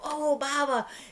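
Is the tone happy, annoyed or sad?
happy. It sounds happy and delighted.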